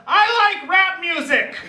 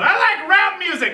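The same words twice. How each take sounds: First: High, sudden blurt; blurted line. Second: High, sudden blurt; yelled blurt. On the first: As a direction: blurt it out in a nervous rush. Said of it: "she blurts out". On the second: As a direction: repeat the nervous yell. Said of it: "she just yells out". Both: Retold or imitated.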